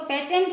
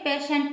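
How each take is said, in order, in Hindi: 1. बीच का व्यंजन t ध्वनि है। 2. बीच का व्यंजन sh ध्वनि है। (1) "इसको पेटेंट नहीं पढ़ेंगे" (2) "पेशेंट पढ़ेंगे"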